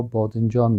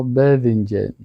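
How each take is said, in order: First: "باذنجان" with rounded back vowels, bodinjon; Dari pronunciation. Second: "باذنجان" with fronted e-like vowels, bedhinjen. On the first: Teacher showing how we say it, Dari pronunciation. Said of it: "ما شما باذنجان بگیم". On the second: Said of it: "اونا باذنجان". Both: Shown as a demonstration.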